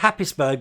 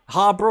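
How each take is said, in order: First: The place name is said following its spelling. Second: The place name is said in a shortened form. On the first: The speaker calls it wrong. "We thought it was called Happisburg" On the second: The speaker calls it right. "it's apparently called uh, Harbour or something"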